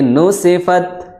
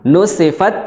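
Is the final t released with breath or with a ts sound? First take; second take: breath; ts sound. First: The final t is released with a breath. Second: The final t is released with a ts sound. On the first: The speaker calls it right. "tapi nusifat" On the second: The speaker calls it wrong. "bukan nusifat"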